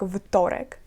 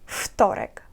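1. Слово починається з дзвінкого звуку v. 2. Слово починається з глухого звуку f. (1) "не вимовляється як вторек" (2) "а як вторек. Ф. Оглушення відбувається"

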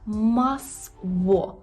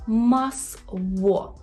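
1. Середній приголосний — округлий звук w. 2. Середній приголосний — округлий звук w.

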